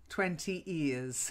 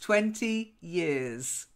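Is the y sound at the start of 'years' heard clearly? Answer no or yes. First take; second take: no; yes. First: The y sound is lost, sounding like 'ears'. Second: The y sound before 'years' is clearly pronounced. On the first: It sounds like the word ears. The speaker calls it wrong. "so that it doesn't sound like twenty years" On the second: It clearly means years of time. The speaker calls it right. "it's it's twenty years"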